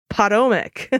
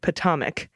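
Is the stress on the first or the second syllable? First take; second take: first; second. First: The stress is on the first syllable. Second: The stress is on the second syllable. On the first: "Stress on the first syllable, Long O sound" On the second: "rhymes with atomic, but with a short O sound"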